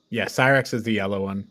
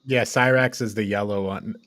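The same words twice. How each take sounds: The two takes are said the same way.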